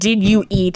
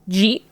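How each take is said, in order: First: Each word is said separately and fully. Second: The words are squished into one short syllable. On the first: "instead of saying" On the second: "we squish words together"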